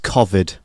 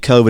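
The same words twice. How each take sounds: First: It is said in an upper-class British pronunciation. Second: It is said in the speaker's ordinary pronunciation. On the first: "my sister goes ... a very upper class British way of saying it" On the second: "I say"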